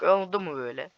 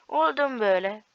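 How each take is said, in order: First: Said in the usual way. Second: Higher, sing-song taunt; teasing a beaten opponent; mocking taunt. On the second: Real, not acted. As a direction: throw it back mockingly. Taunting repeated question.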